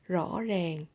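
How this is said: It is said in a Southern Vietnamese accent. "rõ ràng is in Southern accent"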